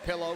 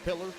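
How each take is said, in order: First: The word ends with an 'oh' sound. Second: The word ends with an 'er' sound.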